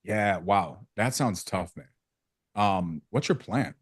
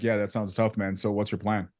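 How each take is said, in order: First: Flat monotone with no feeling. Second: Caring, engaged delivery; empathetic. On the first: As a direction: say it flat, uncaring, slowly. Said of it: "It's just flat all the way through". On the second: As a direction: sound like you actually care. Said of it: "That sounds a lot different than". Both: Shown as a demonstration.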